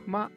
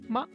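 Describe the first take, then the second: First: The syllable is said with a neutral tone. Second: The same.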